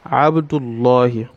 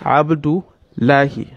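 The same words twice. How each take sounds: First: The l sound is heavy and full. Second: The l sound is light and thin. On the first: The speaker calls it right. "we pronounce with a tafkhim" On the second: The speaker calls it wrong. "It's wrong"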